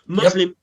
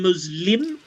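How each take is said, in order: First: The stress is on the first syllable. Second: The stress is on the second syllable.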